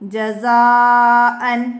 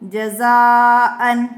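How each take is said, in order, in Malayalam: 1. ഈ വാക്ക് n ശബ്ദത്തിലാണ് അവസാനിക്കുന്നത്. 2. ഈ വാക്ക് n ശബ്ദത്തിലാണ് അവസാനിക്കുന്നത്.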